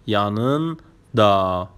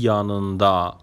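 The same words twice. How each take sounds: First: "yanında" slowly in two parts, yanın... da; split for learners. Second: Said in the usual way. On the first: Shown as a demonstration. Teacher showing learners the word for beside, "yanında" split before da. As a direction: pause inside "yanında" before the drawn-out da.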